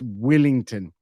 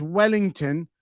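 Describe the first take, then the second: First: Wellington with a short i, "Willington"; New Zealand pronunciation. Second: Said in the usual way. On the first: Shown as a demonstration. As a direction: turn the first vowel of Wellington into Kiwi "Will". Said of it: "but in New Zealand, it's Wellington". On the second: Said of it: "I know it says Wellington".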